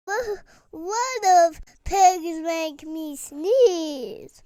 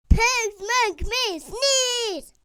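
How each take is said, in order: First: Slow panic. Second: Distressed outburst. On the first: Panicked realisation about pigs. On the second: Tells doctor in distress. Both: Acted.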